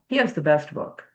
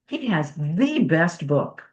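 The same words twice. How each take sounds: First: The word 'the' is said short, like 'thuh'. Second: The word 'the' is said long, like 'thee'. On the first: A casual statement. "if it's just casual, I'm just saying the" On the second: The word is emphasized. "if you want to put a little emphasis on it, Then it's the"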